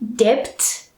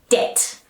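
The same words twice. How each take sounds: First: The B sound is pronounced in the word. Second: The B sound is silent in the word. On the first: The speaker calls it wrong. "we do not say debt" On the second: The speaker calls it right. "Just debt, silent B sound"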